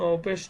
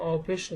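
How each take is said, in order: No difference in how they are said.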